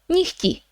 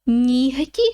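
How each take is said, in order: First: The middle h sound is weakened. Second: The middle h sound is pronounced clearly. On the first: The speaker calls it right. "we pronounce it more like нігті ... it's not really a h there" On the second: The speaker calls it wrong. "you will notice that it's not very comfortable to say нігті"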